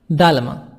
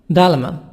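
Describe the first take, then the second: The two takes are said the same way.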